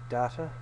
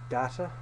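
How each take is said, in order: Both takes have the same delivery.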